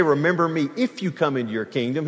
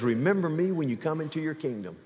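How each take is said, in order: First: IF lifted with a questioning rise; doubtful "if", rising; stress on IF. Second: "when" said firmly, falling and quieter; confident "when", falling; stress on WHEN. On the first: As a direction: lean on "if" with a rising tune, as the wrong version. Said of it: "He didn't say". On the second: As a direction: settle on "when" as the right version. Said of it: "He says". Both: Shown as a demonstration.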